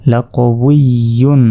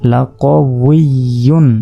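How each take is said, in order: Both takes have the same delivery.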